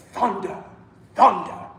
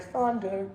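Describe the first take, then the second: First: "thunder" attacked sharply, first syllable heavy; thunderous word. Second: "thunder" softly sung out with no attack; un-thunderous imitation. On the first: Shown as a demonstration. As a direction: hit the start of "thunder" hard. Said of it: "needs to sound like thunder". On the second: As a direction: let "thunder" go limp and gentle. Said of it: "it doesn't sound like thunder yet".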